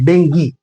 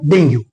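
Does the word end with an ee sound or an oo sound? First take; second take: ee; oo. First: The word ends with an ee sound. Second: The word ends with an oo sound. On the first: This is how American or African English says it. "American English या फिर African English में इसका डेंगी बोला जाता है" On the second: This is how people in India say it. "We are Indians, we call it as what बेटा?"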